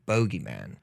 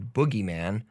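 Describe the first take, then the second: First: The first syllable sounds like 'bow'. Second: The first syllable sounds like 'boo'. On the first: People from England often say it this way. "usually people from England, uh, they'll say" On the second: This is the usual form. "instead of boogeyman"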